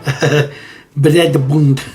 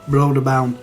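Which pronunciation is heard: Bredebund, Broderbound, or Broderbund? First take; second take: Bredebund; Broderbound. First: It starts with 'Brede', in a Norwegian accent. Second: It starts with 'Broder' and ends in 'bound'. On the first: This is how a Norwegian would say it. The speaker calls it right. "said in a more Norwegian accent" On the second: This is how the speaker said it as a child. The speaker calls it wrong. "when I was young, I used to say Broderbound"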